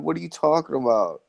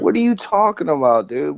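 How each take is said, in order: First: Said in the usual way. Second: Exasperated. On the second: Real, not acted. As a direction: throw it back at them in disbelief. Exasperated outburst in heated argument.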